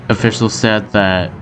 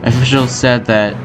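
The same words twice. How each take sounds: The two takes are said the same way.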